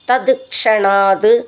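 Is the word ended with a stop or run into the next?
stop. The word ends with a stop on a t sound. "അവിടെ അങ്ങനെ നിർത്തിയിട്ട് ചൊല്ലുകയാണെങ്കിൽ"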